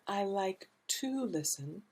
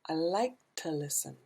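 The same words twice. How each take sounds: First: The word 'to' is said fully and clearly. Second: The word 'to' is strongly reduced and weak. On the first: The speaker calls it wrong. "not I like to listen" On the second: The speaker calls it right. "the to is reduced way down"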